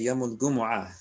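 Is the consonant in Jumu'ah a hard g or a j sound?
hard g. The word Jumu'ah starts with a hard g. This is how the Egyptian-influenced dialect says it. "they say"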